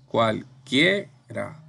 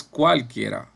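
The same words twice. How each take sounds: First: "cualquiera" very slowly in syllables, punching "quie"; drawn-out "cualquiera", weight on "quie"; stress on QUIE. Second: Said in the usual way. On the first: Shown as a demonstration. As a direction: break up "cualquiera" with pauses, stressing the middle "quie". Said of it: "Esa es la sílaba tónica". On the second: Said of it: "no es cualquiera".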